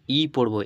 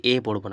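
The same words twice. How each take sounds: First: "ই" as a clear ee, pressed; ই উচ্চারণ. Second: "এ" as an open ay vowel; the mistaken ay sound on "এ"; ভুল এ উচ্চারণ. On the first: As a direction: correct ee vowel on "ই", not ay. ("ই" স্পষ্ট ই স্বরে, জোর দিয়ে) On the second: ("এ" স্বরে ভুল উচ্চারণ) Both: Shown as a demonstration. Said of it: "এ পড়বো না".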